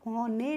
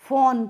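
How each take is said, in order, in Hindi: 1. n के बाद एक अतिरिक्त स्वर ध्वनि सुनाई देती है। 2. शब्द n पर ही समाप्त होता है, उसके बाद कोई स्वर नहीं होता। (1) "इसीलिए इसको हम फोने नहीं पढ़ते हैं" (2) "फोन पढ़ते हैं"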